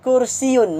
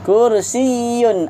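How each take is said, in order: First: The y sound is short and single. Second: The y sound is doubled and held. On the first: The speaker calls it wrong. "Kursiyun ataupun kursiun. Mana satu yang betul?" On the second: The speaker calls it right. "Ada sabdu"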